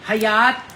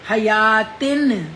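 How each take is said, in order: First: The word ends with a clear t sound. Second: The word ends with a tin sound. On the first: "हयात इतनी त नहीं कहेंगे" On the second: "तिन आएगा ना, दो नून की आवाज आएगी"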